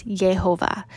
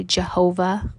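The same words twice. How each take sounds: First: "Yehovah" starting on a Y sound, not J. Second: "Jehovah" starting on a J sound. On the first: Teacher corrects the common version, "Yehovah" with a Y. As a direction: say "Yehovah" opening with "Yeh". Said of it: "but it's Yehovah". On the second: Teacher gives the other people's version, "Jehovah" with a J. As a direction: say "Jehovah" with a hard J at the front. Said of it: "some people say Jehovah". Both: Shown as a demonstration.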